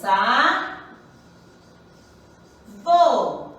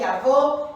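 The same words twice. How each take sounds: First: "a, vô" with a long pause between the syllables; split into syllables. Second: Said in the usual way. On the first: Shown as a demonstration. Teacher separating the syllables for pupils, "a, vô" pulled apart. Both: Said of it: "Separando a sílaba".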